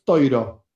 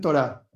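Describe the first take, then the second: First: It has an oi vowel and ends in o. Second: It has a plain o and ends in stressed a. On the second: "Los sefaradí dicen torá"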